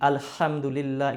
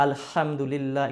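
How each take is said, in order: First: The h is pressed strongly from the throat. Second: The same.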